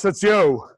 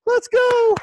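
First: Said in the usual way. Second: "Let's go" sung out high, stretched on "go"; hype call. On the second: Real, not acted. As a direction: lift "Let's go" way up to rally the team. Repeated call, pitched way up.

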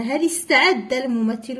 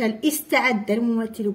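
First: هل استعد run together as hali-sta'adda; linking hamza. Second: استعد split from هل by a glottal i; hamza wrongly pronounced. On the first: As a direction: glide from هل into the st of استعد. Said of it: "قلنا". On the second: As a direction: break before استعد and sound its first i. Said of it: "ما قلناش". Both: Shown as a demonstration.

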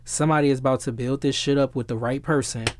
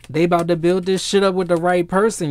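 First: Said in the usual way. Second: Louder, higher emphatic repeat; excited insistence. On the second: Real, not acted. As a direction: drive the point home with rising excitement. Excitedly repeats the same prediction.

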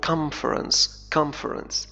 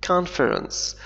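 First: "conference" with the n turned to an m, "comference"; "conference" run together with an m sound before the f; fast-speech pronunciation. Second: "conference" spoken carefully with a clear n, "CON-fer-ens"; "conference" in careful form, n not m before the f; slow, careful pronunciation. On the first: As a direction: say "conference" as in quick speech, "KOM-frens". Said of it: "عندما نتحدث بسرعة نقول". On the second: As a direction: sound out "conference" high and deliberate, keeping the n. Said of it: "لكن في النطق البطيء كما أفعل". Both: Shown as a demonstration.

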